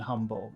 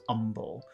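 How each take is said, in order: First: The word begins with an h sound. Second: The word begins without an h sound.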